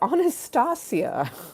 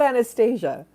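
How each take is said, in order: First: The name is said without an Americanized pronunciation. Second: The name is said with an Americanized pronunciation. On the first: This is how the name is really said. The speaker calls it right. "It is Anastasia" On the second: This is a distorted version of the name. The speaker calls it wrong. "not Anastasia ... that is the Americanization or a bastardization of my name"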